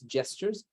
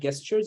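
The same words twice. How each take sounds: First: The word starts with a soft J sound. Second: The word starts with a hard G sound. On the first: The speaker calls it right. "it's pronounced with a J" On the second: The speaker calls it wrong. "not with a G"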